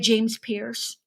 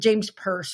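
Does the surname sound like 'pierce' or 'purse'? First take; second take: pierce; purse. First: The surname sounds like the word 'pierce'. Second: The surname sounds like the word 'purse'.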